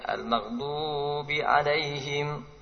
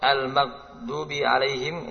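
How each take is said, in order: First: The long vowel is stretched out too long. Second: The long vowel is cut short. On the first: "ini banyak" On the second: "Ini sedikit"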